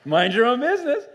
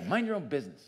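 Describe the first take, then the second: First: High, loud, exaggeratedly cheery mock niceness; hammed-up sweetness, pitched way up; fake-nice with a smile. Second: Brusque, snippy reading; not nice, a touch of scorn; sneering. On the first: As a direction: force it through a big smile, much too loud. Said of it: "the smile on your face?". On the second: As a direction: say it with a mild sneer. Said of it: "say it with, like, a sneer". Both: Shown as a demonstration.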